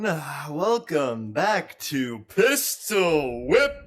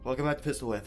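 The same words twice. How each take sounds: First: It is said with high, enthusiastic energy. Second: It is said with calm, low energy.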